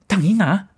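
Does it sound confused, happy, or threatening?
confused. It sounds confused, like not understanding someone.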